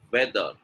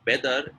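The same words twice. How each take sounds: First: No lip closure starting "weather"; correct V sound. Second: "weather" said as "beather"; b at the front of "weather"; wrong B sound. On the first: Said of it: "it is weather". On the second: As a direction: lips pressed together to start "weather". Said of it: "It's not weather". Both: Shown as a demonstration.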